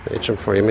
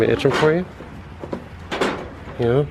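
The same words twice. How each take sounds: First: Said in the usual way. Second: "Itch 'em for you" in a high sing-song pet voice; pet talk. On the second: Real, not acted. Owner scratching the goat, cooing in a high voice. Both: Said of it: "Itch 'em for you".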